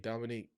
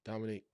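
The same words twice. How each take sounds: The two takes are said the same way.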